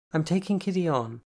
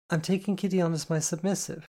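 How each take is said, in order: First: Casual, offhand, stress on taking; nonchalant. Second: Higher, more unsure, leaning on "Kitty"; the composure slips as she repeats "I'm taking Kitty on as my submissive"; cool cracking into insecurity. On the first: Telling her sister over scones, trying to sound nonchalant. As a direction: toss "I'm taking Kitty on" off lightly with weight on "taking". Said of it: "trying to sound as nonchalant". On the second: Repeating the news to her sister, composure cracking. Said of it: "my cool quickly breaking into a grimace of insecurity". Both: A narrator's reading.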